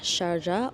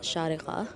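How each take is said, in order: First: The name is said in an anglicized way. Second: The name is said in an Arabic way. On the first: The speaker calls it wrong. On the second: The speaker calls it right.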